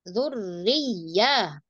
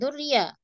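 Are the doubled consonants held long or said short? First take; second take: held long; short. First: The doubled consonants are held long. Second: The doubled consonants are said short, not held. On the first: The speaker calls it right. "Ro ditahan, dilamain" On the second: The speaker calls it wrong. "Bukan durya"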